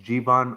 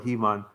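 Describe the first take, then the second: First: The word begins with a J sound. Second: The word begins with an H sound. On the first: "I think it might be Jivan" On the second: "if you pronounce the J if that's if that's G"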